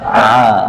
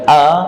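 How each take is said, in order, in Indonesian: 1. Diawali dengan bunyi dari tengah tenggorokan. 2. Diawali dengan hamzah yang tajam. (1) "Tenggorokan paling tengah ya" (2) "bukan a"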